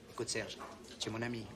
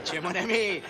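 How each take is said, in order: First: Softer, lower, sugary imitation of the debtor; mimicking the debtor's sweet-talking voice to his creditor; honeyed voice. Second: Laughing mock. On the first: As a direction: coax him like a sly old friend. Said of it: "il commence à prendre sa voix de miel". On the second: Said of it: "il me fait".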